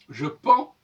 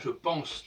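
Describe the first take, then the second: First: The word ends without a final consonant sound. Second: The word ends with a clear final consonant sound. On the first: It is the indicative form. The speaker calls it right. "on ne prononce pas le S" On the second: It is the subjunctive form. The speaker calls it wrong. "Et pas je pense"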